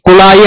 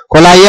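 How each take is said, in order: First: కుళాయి with "ku" in the first syllable; correct pronunciation. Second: కుళాయి loosened to "ko-laa-yi"; common pronunciation. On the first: Teacher correcting learners on the proper word, కుళాయి said with a clear "ku". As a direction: say కుళాయి as "ku-laa-yi". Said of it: "కుళాయి అనాలి". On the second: Teacher showing what people generally say, కుళాయి pronounced with "ko" instead of "ku". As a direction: say కుళాయి with "ko" for the first syllable. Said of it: "అంటారు general గా". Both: Shown as a demonstration.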